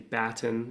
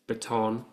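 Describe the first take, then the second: First: It is pronounced the Australian way. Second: It is pronounced the American way.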